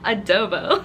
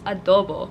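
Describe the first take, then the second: First: It is said with an American pronunciation. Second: It is said with a Filipino pronunciation. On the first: The speaker calls it wrong. "as if I'm freaking American" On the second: The speaker calls it right. "I am Filipino, it's adobo"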